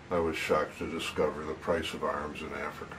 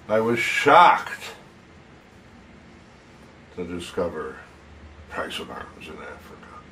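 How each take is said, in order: First: It is said plainly, without emotion. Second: It is said with strong shocked emotion.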